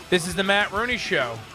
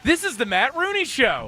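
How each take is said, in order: First: It is said flatly, with little energy. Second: It is said excitedly, with more energy. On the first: The speaker calls it wrong. "that was pathetic" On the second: The speaker calls it right. "can you sound more excited when you say that?"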